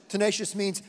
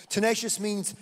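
No difference in how they are said.

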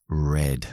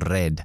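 First: The r is a soft English-style approximant r. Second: The r is a Spanish-style tapped or rolled r. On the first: The speaker calls it right. "cuando deberían decir red" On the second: The speaker calls it wrong. "tienen un acento muy español ... su R no están, todavía están diciendo red"

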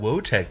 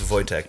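First: The name is said in an anglicized way. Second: The name is said in a Polish way. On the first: The speaker calls it wrong. "people were like, oh, that [name] band ... That's not how you say it" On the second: The speaker calls it right. "I was like, it's Wojciech, dude"

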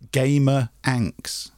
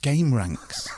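First: The name is split as 'gamer anx'. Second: The name is split as 'game ranks'. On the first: The speaker calls it wrong. "I always thought it was called Gamer Anx" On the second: The speaker calls it right. "and it's not, it's Game Ranks"

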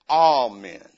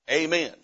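First: Amen is said with a Northern US pronunciation. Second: Amen is said with a Southern US pronunciation. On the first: "If you come up north ... sometimes it's amen" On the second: "in the South, the word amen is said amen"

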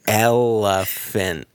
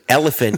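First: The word is stretched out slowly and long. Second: The word is said quickly at normal length. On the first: "You're stretching time" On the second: "instead of saying elephant"

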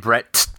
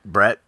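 First: The final T is said hard. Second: The final T is said softly. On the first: The speaker calls it right. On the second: The speaker calls it wrong.

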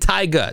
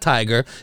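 First: The word has a stylized, funky pronunciation. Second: The word has a plain, ordinary pronunciation. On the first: The speaker calls it right. "you need a little funk to it" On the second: The speaker calls it wrong. "not Tiger"

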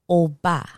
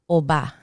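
First: The first syllable carries more weight. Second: The second syllable carries more weight.

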